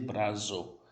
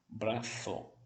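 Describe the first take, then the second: First: The middle consonant is a buzzing z. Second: The middle consonant is a soft th. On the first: The speaker calls it wrong. "não tem som de Z... eu não vou dizer brazo" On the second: The speaker calls it right. "se for na Espanha, braço, língua entre os dentes"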